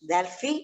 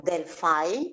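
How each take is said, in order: First: Delphi with a final "fee"; Greek pronunciation. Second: Delphi slowly, ending in "fie"; English pronunciation. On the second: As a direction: say Delphi as del-FYE, the English way. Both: Shown as a demonstration. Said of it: "as you pronounce it".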